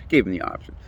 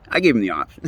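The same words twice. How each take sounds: First: "Gave him the option" whispered through a laugh, much softer; breathy laughing repeat. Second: Said in the usual way. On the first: Real, not acted. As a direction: chuckle the words out under your breath. Repeats own line laughing.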